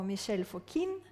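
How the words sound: The name is pronounced in a French way.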